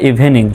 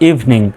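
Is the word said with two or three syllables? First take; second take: three; two. First: The word is said with three syllables. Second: The word is said with two syllables. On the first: The speaker calls it wrong. "আমাদেরকে শেখানো হয় ইভিনিং" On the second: The speaker calls it right. "সঠিক উচ্চারণ হলো ইভিনিং"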